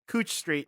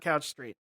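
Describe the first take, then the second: First: The first word's vowel sounds like 'oo'. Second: The first word's vowel sounds like 'ow'. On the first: The speaker calls it right. "how it's pronounced uh, Cooch Street" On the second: The speaker calls it wrong. "not Couch Street"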